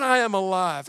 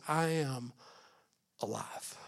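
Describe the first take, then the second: First: I am alive said out firmly, a bit louder, stress on I; declared. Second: I am alive, quiet, with alive falling to almost nothing; hushed. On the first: Pastor repeating Jesus' words to the church, firmly declared. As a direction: proclaim I am alive plainly and strong. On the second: Pastor first saying Jesus' words to the church, hushed. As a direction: breathe I am alive softly as a secret. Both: Shown as a demonstration. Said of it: "he said it like this".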